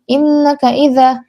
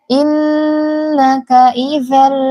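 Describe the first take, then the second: First: The doubled n is rushed quickly. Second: The doubled n is held with long nasal hum. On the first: The speaker calls it wrong. "jangan cepat-cepat, jangan innaka idza" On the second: The speaker calls it right. "kadar gunnah itu adalah dua harokat"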